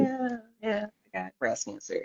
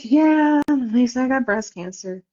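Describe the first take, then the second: First: Offhand. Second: Nonchalant. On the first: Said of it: "I don't wanna make it a big deal". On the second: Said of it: "All nonchalant". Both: Retold or imitated.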